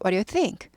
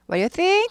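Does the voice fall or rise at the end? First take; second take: fall; rise. First: The voice falls at the end. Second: The voice rises at the end. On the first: The speaker calls it right. "의문사 있는 의문 끝을 내려 읽어요" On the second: The speaker calls it wrong. "아니고"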